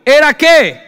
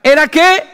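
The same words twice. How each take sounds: First: "¿era qué?" loud, with "qué" falling; falling question. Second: "¿Era qué?" loud, with "qué" rising; rising question. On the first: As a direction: drop the pitch on "qué". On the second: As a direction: lift the pitch on "qué". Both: Acted. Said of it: "repeated with contrasting tune".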